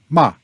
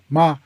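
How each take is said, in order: First: The pitch falls sharply from high to low. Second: The pitch is light, short and neutral. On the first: The word is a curse. "And ma is a curse" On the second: It marks a sentence as a question. "And then the neutral"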